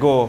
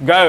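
First: Said in the usual way. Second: "go" said the British way, rounded o; a British English "go"; British English accent. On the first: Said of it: "আমাদের ভাষায় go". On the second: Shown as a demonstration. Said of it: "in British accent".

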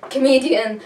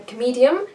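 First: "Comedian." said firmly with a falling tune; confirmed pronunciation. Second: "comedian?" tried out with a questioning rise; unsure pronunciation. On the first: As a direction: settle on "Comedian." with certainty. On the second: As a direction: test the word "comedian?" as if checking it. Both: Shown as a demonstration.

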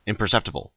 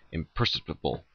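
First: Imperceptible said in full, im-per-SEP-ti-ble; correct pronunciation. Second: Imperceptible garbled as impersable; mispronounced. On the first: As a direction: Imperceptible with every syllable clear. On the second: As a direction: imperceptible said without the cept syllable. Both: Shown as a demonstration.

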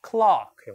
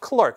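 First: "clock" as an open "klahk", no r; British clerk said like clock; British pronunciation. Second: Clerk with an r-coloured "klurk" vowel; American pronunciation. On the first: Teacher showing students British clerk as "clock", open vowel. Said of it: "영국식으로는". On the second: Teacher echoing the recording, American clerk with the r. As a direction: clerk said high and short as "klurk". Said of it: "이건 어렵지 않은데". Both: Shown as a demonstration.

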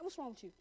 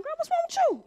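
First: Very soft, lower retold question; imitated daddy look. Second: High-pitched, incredulous retold question; mock startled dad. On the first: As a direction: drop it to a hushed fatherly query. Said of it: "with that daddy face like". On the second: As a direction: imitate a taken-aback father, pitched way up. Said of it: "Dad looked at me like".

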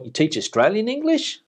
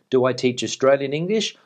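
First: "you teach Australian English" with a high, climbing question rise; incredulous question intonation. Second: Said in the usual way. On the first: Shown as a demonstration. Vlogger re-reading a viewer's possibly insulting question, incredulous rising tone. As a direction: end "Australian English" on a steep upward lift, as if doubting it. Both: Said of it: "an insult or a genuine question".

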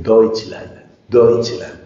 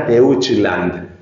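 First: Deutschland as "doych-land"; correct German pronunciation. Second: Deutschland as "de-ut-chis-land"; wrong German pronunciation. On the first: Teacher correcting the learner, Deutschland said as doych-land. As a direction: say the EU in Deutschland as one "oy" sound. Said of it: "se pronuncia oi". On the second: Teacher showing what not to say, Deutschland as de-ut-chis-land. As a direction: sound E and U separately in Deutschland, Spanish-style. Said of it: "no diga Deutschland". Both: Shown as a demonstration.

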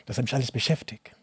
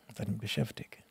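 First: Said in the usual way. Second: Breathed, voiceless repeat to himself; whisper. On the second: Real, not acted. Recalling his loneliness in Germany, whispered to himself. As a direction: let the words sink to a whisper.

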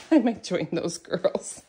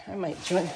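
First: Laughing through the words. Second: Said in the usual way. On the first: Real, not acted. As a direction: chuckle your way through the line. Repeats line while laughing.

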